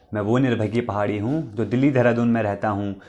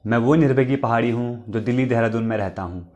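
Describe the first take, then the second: No difference in how they are said.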